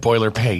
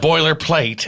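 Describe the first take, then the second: First: The word ends with a 'pate' sound, no l. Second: The word ends with a clear 'plate' sound. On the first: "you mentioned the pate" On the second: "It's a boilerplate"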